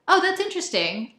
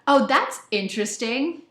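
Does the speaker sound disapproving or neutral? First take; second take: neutral; disapproving. First: It is said in a neutral, sincere tone. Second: It is said in a disapproving, negative tone. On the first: The speaker genuinely finds it interesting. "I genuinely mean that's interesting, and it could be either negative or positive, but it's it's pretty neutral" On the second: The speaker thinks it is a bad thing. "it is it is so not good"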